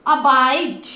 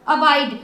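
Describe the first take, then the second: First: अबाइड drawn out slowly, stopping on the final D; silent final E. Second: Said in the usual way. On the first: Shown as a demonstration. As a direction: stretch the "aai" in अबाइड, no vowel at the end. (अबाइड खींचकर, अंत में ई silent) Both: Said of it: "उसको silent रखिए".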